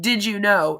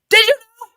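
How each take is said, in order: First: It is asked gently like a question. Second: It is yelled loudly like an exclamation.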